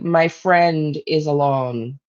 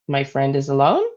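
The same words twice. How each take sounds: First: The voice falls at the end. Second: The voice rises at the end.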